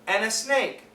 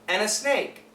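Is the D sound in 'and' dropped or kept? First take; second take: dropped; dropped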